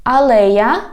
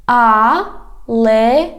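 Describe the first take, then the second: First: Said in the usual way. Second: "Алея" slow, in separate syllables. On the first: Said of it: "I read the whole word". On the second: Shown as a demonstration. Teacher has learners repeat, "Алея" slowly by syllables. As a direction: draw out each syllable of "Алея". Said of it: "divide it into syllables".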